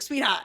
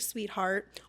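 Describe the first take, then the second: First: It is said with a Boston accent. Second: It is said in a creepy, leering way. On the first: It is a harmless habit of speech that means nothing. "a dude with a Boston accent who's like" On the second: The speaker intends something unwelcome by it. "a creepy dude who's like"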